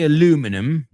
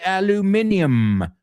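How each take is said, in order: First: It is said the American way, four syllables. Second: It is said the British way, five syllables. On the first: "We don't say aluminum like those Americans" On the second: "We say aluminium"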